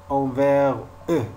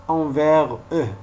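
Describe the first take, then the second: The two takes are said the same way.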